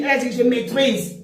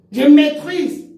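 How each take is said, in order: First: Said in the usual way. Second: Louder, higher mocking je maîtrise; mock boast. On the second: Mocking a rival's boast to viewers. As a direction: parrot her boast je maîtrise.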